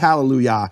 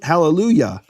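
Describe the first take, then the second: First: The final 'ya' has the same vowel as 'Yahweh'. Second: The final 'ya' has a vowel unlike 'Yahweh'. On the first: The speaker calls it wrong. "They don't say hallelujah" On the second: The speaker calls it right. "they pronounce the Yah of hallelujah correctly"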